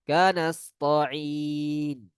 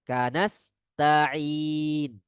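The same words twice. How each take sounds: First: The t sound is heavy and thick. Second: The t sound is light and thin. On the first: The speaker calls it wrong. "ada sebagian orang yang bacanya dengan to" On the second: The speaker calls it right. "Bukan to, tapi ta"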